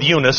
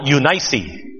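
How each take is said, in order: First: The name is given its common American pronunciation. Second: The name is given its Biblical pronunciation. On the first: "our American pronunciation of it" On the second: "as they tell us to pronounce it in the Bible"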